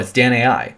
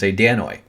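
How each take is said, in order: First: It is said 'Dan-ah-ee', ending in separate vowels. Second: It is read the English way, ending in 'oy'. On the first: The speaker calls it right. "No, it's Dan-A-I" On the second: The speaker calls it wrong. "pronounce it how we would pronounce it in English"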